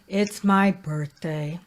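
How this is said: The pitch steps downward across the phrase. The speaker sounds depressed. The speaker calls it wrong. "Descending, I'm going down the stairs"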